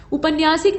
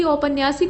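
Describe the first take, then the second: First: उपन्यासिक with short उ at the start; उपन्यासिक said with plain उ; wrong form said. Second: औपन्यासिक with the औ sound at the start; correct form said. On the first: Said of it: "उपन्यासिक नहीं बल्कि". (गलत रूप उपन्यासिक, छोटे उ से) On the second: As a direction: begin औपन्यासिक with a clear औ. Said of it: "बल्कि औपन्यासिक होता है". (सही रूप औपन्यासिक, औ के साथ) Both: Shown as a demonstration.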